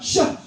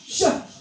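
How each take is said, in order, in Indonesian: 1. Bunyi sh mengeluarkan udara yang kuat dan menyebar. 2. Bunyi sh mengeluarkan udara yang kuat dan menyebar.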